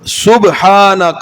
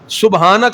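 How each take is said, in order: First: The b sound bounces with a small echo. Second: The b sound is plain, with no bounce. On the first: The speaker calls it right. "बा पे कलकला पैदा करना" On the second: The speaker calls it wrong. "सुबहानक अल्लाहुम्मा नहीं पढ़ना"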